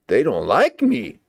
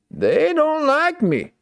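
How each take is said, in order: First: Said in the usual way. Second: Much higher, slow and drawn out; high sing-song whine. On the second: Shown as a demonstration. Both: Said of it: "repeated in another voice".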